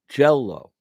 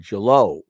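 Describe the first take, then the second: First: The stress is on the first syllable. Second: The stress is on the second syllable. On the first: The speaker calls it right. "the gel is louder than the low" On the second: The speaker calls it wrong. "I don't say jello. People may not even recognize the word said that way"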